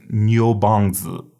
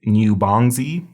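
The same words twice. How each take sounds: First: "Niubangzi" as nyoh-bang-dzuh; correct pronunciation demo. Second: "Niubangzi" as nyoo-bang-zee, rising at the end; mispronounced demo. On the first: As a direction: say "Niubangzi" with nyoh and a buzzed final dz. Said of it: "This is Niubangzi". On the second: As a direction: slowly say "Niubangzi" ending in a clear zee. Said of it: "So please don't say". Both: Shown as a demonstration.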